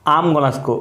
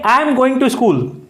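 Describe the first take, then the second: First: Going to is reduced to one word, gonna. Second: Going to is said fully as two words. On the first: This is how native English speakers say it. "अंग्रेज बोलेगा" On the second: This is how Indian speakers usually say it. "हम बोलेंगे"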